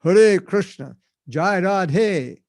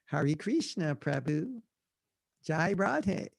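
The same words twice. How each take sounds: First: "Hare Krishna, Jai Radhe" loud, with tapped r's; loud, exaggeratedly correct Sanskrit "Hare Krishna, Jai Radhe"; proper Sanskrit pronunciation. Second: Softly mimicked American "Hare Krishna", HAIR-ee KREESH-na; broad American-accented devotee greeting. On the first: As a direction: proclaim "Hare Krishna" as huh-RAY KRISH-na. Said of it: "that's not the proper pronunciation". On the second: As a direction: say the Sanskrit like an American, with an English r. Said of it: "we say everything like Americans". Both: Shown as a demonstration.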